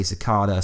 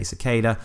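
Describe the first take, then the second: First: Cicada, long "ah" in the middle. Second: Cicada, "ay" in the middle. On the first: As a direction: say Cicada as si-KAH-da. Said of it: "I say Cicada". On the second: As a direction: say Cicada as si-KAY-da. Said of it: "some people say Cicada". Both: Shown as a demonstration.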